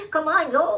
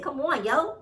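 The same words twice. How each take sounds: First: Louder, higher New York come on yo; New York accent. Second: Light New York accent on come on yo. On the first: Host hams up New York accent to dismiss excuse. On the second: Host slips into New York accent for emphasis. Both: Shown as a demonstration. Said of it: "In my New York accent".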